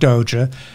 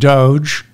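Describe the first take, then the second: First: The word ends with an extra vowel sound. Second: The word ends on a consonant sound. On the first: The speaker calls it wrong. "not Doja" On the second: The speaker calls it right. "it's pronounced Doge"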